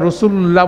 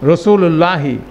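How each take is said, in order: First: The word ends without a final vowel. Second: The word ends with a final i vowel. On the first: The reader stops after this word. "হরকতটা নিয়ে আমরা রসুলুল্লাহ বলে দাঁড়ায় যাই" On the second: The word is joined to what follows. "পুরো প্রনাউন্সিয়েশন হবে রসুলুল্লাহি"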